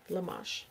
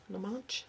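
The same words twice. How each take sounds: First: LAMASH softly, ending in a smooth sh; trying a pronunciation. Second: LAMASH softly as la-MATCH, with a ch ending; alternative pronunciation. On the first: Host testing a viewer's last name, quiet Lamash with sh. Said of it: "if I've ever said your last name". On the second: Host unsure of the last name, quiet Lamash said la-match. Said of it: "how to say it correctly". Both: Shown as a demonstration.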